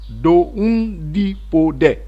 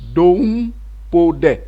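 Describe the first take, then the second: First: All four syllables are said in full. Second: The second syllable is dropped, leaving three. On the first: "la première façon" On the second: "la forme contractée"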